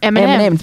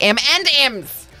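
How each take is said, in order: First: The stress is spread evenly and smoothly. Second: The stress falls heavily on the final M. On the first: The speaker calls it right. "It's just meant to roll off the tongue like M&M's" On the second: The speaker calls it wrong. "Why do you put so much emphasis on the end and the second M?"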